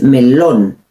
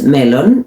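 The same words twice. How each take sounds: First: "melón" slowly, as me-LON; "melón" with a drawn-out, stressed -lón; accent on last syllable. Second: "melón" stressed as MEL-on; "melón" with English-like stress, ME-lon; wrong first-syllable stress. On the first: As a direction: lean hard on the final syllable of "melón". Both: Shown as a demonstration. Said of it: "Again, accent".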